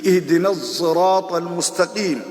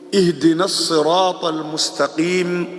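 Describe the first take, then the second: First: Sirat begins with a blended s-z sound. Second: Sirat begins with an emphatic, heavy s sound.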